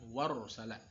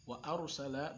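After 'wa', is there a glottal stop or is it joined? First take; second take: joined; glottal stop. First: 'Wa' runs straight into 'arsala'. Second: A glottal stop separates 'wa' and 'arsala'. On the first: The speaker calls it wrong. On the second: The speaker calls it right. "Itu hamzah qata'"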